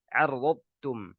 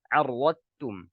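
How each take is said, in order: Both takes have the same delivery.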